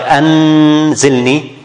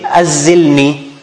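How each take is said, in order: First: The n is pronounced fully and clearly. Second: The n is dropped and merged into the z. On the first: "you don't pronounce the noon clearly, like anzilni, this is izhar, that's wrong" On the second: "You don't say azilni, like idgham"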